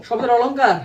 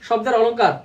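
No difference in how they are said.

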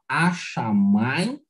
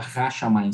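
First: The initial h sound is dropped. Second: The initial h sound is clearly pronounced. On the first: This reflects modern Israeli Hebrew influence. "se fala a-chamayim" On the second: This is the traditional reading. "não se fala ra-chamayim"

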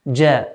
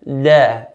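First: The first consonant sounds like English j. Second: The first consonant sounds close to d. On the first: The speaker calls it right. "which is similar to the English J" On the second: The speaker calls it wrong. "Nor do we make the جيم closer to a دال"

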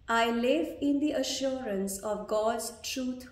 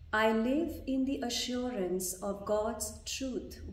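First: It is spoken in a loud voice. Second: It is spoken in a soft voice. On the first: "Repeat after me loudly first, in a louder voice" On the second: "in a softer voice"

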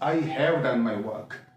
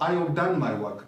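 First: The word have is said in full. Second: The word have is reduced and contracted. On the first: The speaker calls it wrong. "we mustn't pronounce it as" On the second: The speaker calls it right. "it is not stressed, by contraction"

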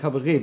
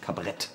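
First: The word is said with an Austrian accent. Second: The word is said without an Austrian accent. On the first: The speaker calls it right. "wie man das in Österreich ausspricht" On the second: The speaker calls it wrong. "Das ist ein ganz hässliches Wort"

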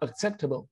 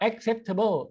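First: The first syllable has a weak schwa vowel. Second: The first syllable has a full, open vowel. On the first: The speaker calls it right. "ก็เป็นเอิก" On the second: The speaker calls it wrong. "สมัยก่อนผมก็ออกเสียงว่า"

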